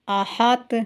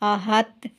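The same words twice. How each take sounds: First: The final consonant bounces with a short vowel. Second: The final consonant stops with no bouncing vowel. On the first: The speaker calls it right. "Last पे आधे पेश की आवाज़ आ रही है" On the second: The speaker calls it wrong. "ऐसे नहीं पढ़ना"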